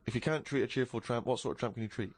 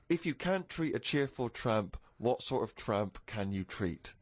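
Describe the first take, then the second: First: It is said quickly, at a fast pace. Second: It is said at a normal, unhurried pace.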